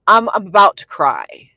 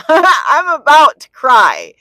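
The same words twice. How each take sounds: First: Loud, emphatic exasperation; loud retold complaint at usual pitch; retold frustration. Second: Loud, high, drawn-out wail; hammed-up tearful outburst after a laugh; mock near-tears wail. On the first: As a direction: say it forcefully, at the end of your patience. Retells frustration near tears. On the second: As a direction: wail it slowly, hamming up the despair. Repeats it as exaggerated near-tears wail.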